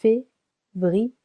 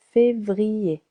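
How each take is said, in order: First: Février split into three syllables fé-vri-er. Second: Said in the usual way. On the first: Shown as a demonstration. Teacher splitting a month into syllables for learners. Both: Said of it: "three syllables".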